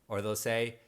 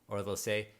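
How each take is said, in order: The two takes are said the same way.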